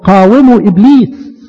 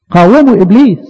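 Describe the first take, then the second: First: Slow scripture quote. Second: Said in the usual way. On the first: Shown as a demonstration. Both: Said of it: "لان الكتاب المقدس".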